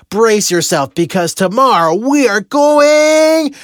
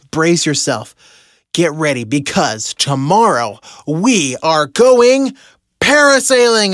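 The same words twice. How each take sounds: First: Higher and louder, stretching going out long and slow; corny grand announcement. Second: Corny grand announcement. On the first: Husband announcing the surprise excursion to his wife, hammed-up showman build. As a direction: build it up like a cheesy game-show reveal. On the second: Husband revealing parasailing to Heather, hammed-up announcer build. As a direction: play the cheesy reveal, landing hard on the last word. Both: Retold or imitated. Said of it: "turned it into a really corny ceremony".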